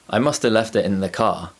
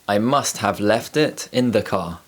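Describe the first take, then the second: First: 'Must have' is reduced to sound like 'muster'. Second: 'Must have' is said in its full form.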